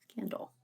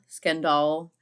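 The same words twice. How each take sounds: First: It is said with a plain, everyday pronunciation. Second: It is said with a fancy, foreign-sounding pronunciation. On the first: "we just say Scandal" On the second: "everyone says like Scandal"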